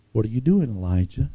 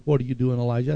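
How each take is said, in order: First: A light scolding tone; mild stern reproach. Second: Loving tone. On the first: God questioning the hiding prophet, a mild scold. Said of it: "the first one was kind of a scold". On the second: God gently asking Elijah in the cave, with love. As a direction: ask it with tender love. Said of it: "there was love in the tone of the other one". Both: Shown as a demonstration.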